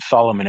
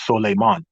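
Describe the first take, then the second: First: The second syllable sounds like 'lo'. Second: The second syllable sounds like 'lay'. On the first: The speaker calls it wrong. "you don't pronounce it Solomon" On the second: The speaker calls it right. "it's pronounced Soleiman"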